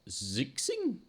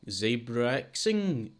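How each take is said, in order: First: The name sounds like two syllables, zix-ing. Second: The name sounds like zebra-xing, run together.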